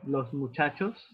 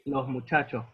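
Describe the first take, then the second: First: The final s sounds are clear hissing s sounds. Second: The final s sounds become a very soft h. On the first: "Instead of los muchachos" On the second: "they say los muchachos because the S in the end of each word is practically skipped"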